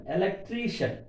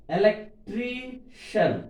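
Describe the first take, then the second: First: Said in the usual way. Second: "electrician" slowly split, TRI held high; stress on TRI. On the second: Shown as a demonstration. Teacher showing the syllable before suffix, slow high TRI in "electrician". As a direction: separate and stretch TRI in "electrician". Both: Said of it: "Suffix before".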